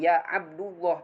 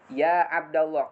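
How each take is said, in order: First: Abd ends in a vowel other than a. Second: Abd ends in an a vowel. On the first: The speaker calls it wrong. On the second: The speaker calls it right. "tapi ya Abdullah karena munada mudhaf wajib dibaca nasab"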